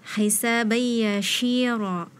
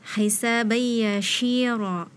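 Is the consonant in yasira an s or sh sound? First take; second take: sh; sh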